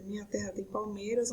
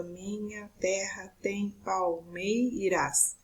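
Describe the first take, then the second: First: Said in the usual way. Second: Slow, separated syllables of "palmeiras" and the words before it. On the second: Shown as a demonstration. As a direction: split every word into its syllables, slowly. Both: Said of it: "nós vamos fazer a divisão gramatical".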